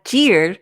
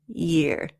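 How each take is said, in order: First: It begins with a hard 'j' sound. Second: It begins with a soft 'y' sound. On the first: The speaker calls it wrong. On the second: The speaker calls it right.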